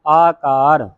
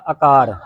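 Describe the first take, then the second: First: ਆਕਾਰ opening on a long, full aa; long first vowel. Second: ਆਕਾਰ with a short first vowel, "akaar"; common misreading. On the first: Teacher models the word for students, ਆਕਾਰ with long aa. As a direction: stretch the first aa of ਆਕਾਰ like the second. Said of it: "ਐੜੇ ਕੰਨਾ ਲਾ ਕੇ ਉਚਾਰਨ ਕਰਨਾ ਹੈ". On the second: Teacher shows how congregations misread it, short-voweled ਆਕਾਰ. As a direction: shorten the opening of ਆਕਾਰ to a quick a. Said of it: "ਇਹਨੂੰ ਕੀ ਪੜ੍ਹ ਜਾਂਦੀਆਂ ਸੰਗਤਾਂ?". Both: Shown as a demonstration.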